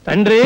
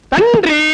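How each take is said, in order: First: Said in the usual way. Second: High, drawn-out call for father. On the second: Acted. Calling father at midnight with police here, calling out. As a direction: call again, pitched up to rouse him. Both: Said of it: "తండ్రి అని అరిచేస్తున్నావు".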